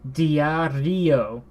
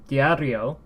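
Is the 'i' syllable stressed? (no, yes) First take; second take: yes; no. First: The stress falls on the i. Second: The stress does not fall on the i. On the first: The speaker calls it wrong. "if you were to pronounce uh, diario with with that same uh, stress ... because it's not normal" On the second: The speaker calls it right. "It's not stressed"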